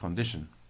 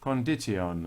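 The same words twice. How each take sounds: First: It uses the modern everyday pronunciation. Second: It uses an older, Shakespearean-era pronunciation. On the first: The speaker calls it wrong. "not condition" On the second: The speaker calls it right. "in Shakespearean times, condition was pronounced"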